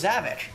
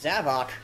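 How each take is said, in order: First: The last syllable sounds like 'ick'. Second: The last syllable sounds like 'ock'. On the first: The speaker calls it wrong. "I thought it was Zavik. Like, Havoc" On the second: The speaker calls it right. "it's Zavok"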